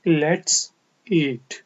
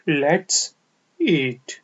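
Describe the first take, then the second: The two takes are said the same way.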